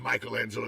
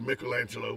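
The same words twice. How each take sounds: First: The name is said with an English pronunciation. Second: The name is said with an Italian pronunciation. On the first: This is the altered form people commonly use. The speaker calls it wrong. "we bastardized it into Michelangelo" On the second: This is the original form of the name. The speaker calls it right. "It's actually Michelangelo"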